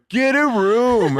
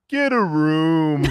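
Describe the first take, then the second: First: Much higher, louder, slow sing-song taunt; mocking kid. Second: Put-on slow, higher taunting kid voice; mocking kid. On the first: Imitating the twelve-year-old heckling the kissing couple, high slow taunt. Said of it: "kid sitting on a bluff going". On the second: Imitating a kid on the bluff teasing them, slow taunt. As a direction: drag it out like a cheeky kid. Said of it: "kid go".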